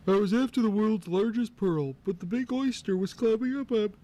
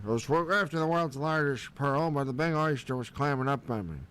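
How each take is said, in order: First: High put-on crab voice, raised pitch; first crab voice. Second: Retry near his own voice, only lightly voiced crab; second crab voice. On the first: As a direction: voice Krabby high and cartoonish. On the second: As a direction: start the crab story over, barely in character. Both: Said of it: "Let me start over".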